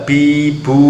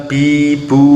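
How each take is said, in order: The two takes are said the same way.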